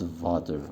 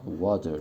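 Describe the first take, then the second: First: The word begins with a buzzing V sound. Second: The word begins with a rounded W sound. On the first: The speaker calls it wrong. "not water" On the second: The speaker calls it right. "This time is W sound"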